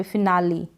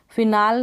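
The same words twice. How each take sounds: First: फिनाली with a long ee at the end; final E pronounced. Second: फिनाल with a silent final e; फिनाल cut to two syllables; wrong pronunciation. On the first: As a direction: say फिनाली in three syllables, fi-naa-lee. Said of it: "फिनाल नहीं पढ़ रहे, फिनाली". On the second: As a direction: end फिनाल on the l, fi-naal. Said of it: "फिनाल नहीं पढ़ रहे". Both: Shown as a demonstration.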